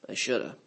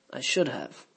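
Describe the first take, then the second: First: "shoulda" with the have reduced to uh; contracted shoulda. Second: Said in the usual way. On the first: Shown as a demonstration. Teacher showing the native contraction, swallowed. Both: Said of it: "the words get swallowed and contracted".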